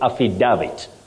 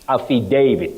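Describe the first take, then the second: First: The A does not sound like letter A. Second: The A sounds like the letter A. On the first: The speaker calls it wrong. "what we commonly hear as we grow up" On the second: The speaker calls it right. "this word is pronounced as affidavit"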